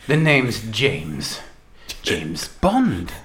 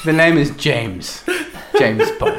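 First: Low, slow suave Bond delivery; low, slow Bond line, going down at the end; James Bond line. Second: James Bond line. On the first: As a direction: drop the pitch and draw out the name slowly. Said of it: "I'm gonna go". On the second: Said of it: "I say". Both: Shown as a demonstration.

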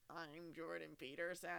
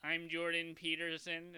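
First: Slow, soft robotic Jordan Peterson; imitating a robotic impression. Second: Slow, higher, louder robotic drone. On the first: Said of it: "you sounded like a robot". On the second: Pretend. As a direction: stiff robot-like Jordan Peterson. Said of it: "You sound like a robot".

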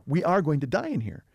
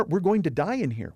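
First: "are" set apart and stressed. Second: Said in the usual way. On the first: Retold or imitated. Captives realize their fate, retold with stress on "are". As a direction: lean on "are" as the grim certainty.

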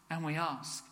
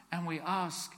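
The two takes are said the same way.

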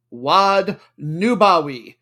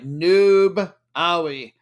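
First: Wad Nubawi drawn out slowly and louder; Nubawi announced grandly. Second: Noob stretched out loud, then Awi apart; cheesy stress on Noob. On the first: Host introducing his long-awaited team, Nubawi announced grandly. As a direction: savour Nubawi as one whole name. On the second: Host showing noob is in the name, cheesy stress on Noob. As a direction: split Nubawi and lean hard on Noob. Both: Shown as a demonstration. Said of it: "I'm gonna be just that cheesy".

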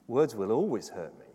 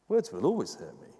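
First: "always" leaned on, falling away after; stress on ALWAYS. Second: "Words" struck first and strongest, then falling; stress on WORDS. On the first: Preacher correcting the old rhyme, stress on "always". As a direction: press the word "always" in "Words will always hurt me". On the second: Preacher repeating the corrected rhyme, stress on "Words". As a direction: open with a hit on "Words". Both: Shown as a demonstration.

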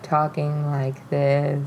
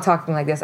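First: Low, drawn-out demo; drugged slow talk. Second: Said in the usual way. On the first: Shown as a demonstration. Storyteller shows how she talked on Xanax, slow and low. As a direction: drag the words out low and slow. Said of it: "I was not talking like this. I was, like, talking like this". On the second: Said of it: "I was not talking like this".

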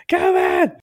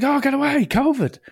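First: Even higher and louder mocking squeak; a hammed-up high squeal of get away; mock rude lad. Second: High hammed-up voice, dismissive; a much higher mocking squeak brushing someone off; mock rude lad. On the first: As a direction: push the dismissal to a ridiculous peak. Mocking line repeated after laugh. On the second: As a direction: ham up the jumper brushing him off. Mocking the rude queue-jumper.

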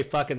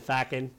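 First: Said in the usual way. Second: "fackin'" with an open "a" in the first syllable; Irish pronunciation. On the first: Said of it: "they didn't say". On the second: Shown as a demonstration. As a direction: say "fackin'" the Irish way, with "fack" for "fuck". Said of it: "they said".

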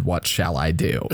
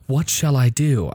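First: Mock-formal theatrical line, lower and laughing; hammy stage actor. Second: Put-on light worried child's question. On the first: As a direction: ham up the old-fashioned question. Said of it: "I doubt a kid said". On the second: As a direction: ask it like an anxious kid. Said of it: "children ask".

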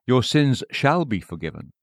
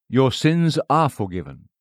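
First: Said in the usual way. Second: Your sins ARE forgiven, with are leaned on firmly; stress on ARE. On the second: Shown as a demonstration. Preacher correcting a misquote, weight on ARE. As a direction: press hard on are, a settled fact. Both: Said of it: "He didn't say".

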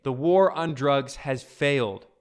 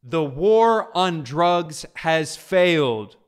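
First: Slow, war on drugs stressed; a firm verdict; emphatic restatement. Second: Slow, louder, each word weighed; a grave proclamation; emphatic quote. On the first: Real, not acted. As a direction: spell out The war on drugs has failed. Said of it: "He says it as clearly as day". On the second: Retold or imitated. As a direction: lay down The war on drugs has failed word by word. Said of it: "here he says it fully".

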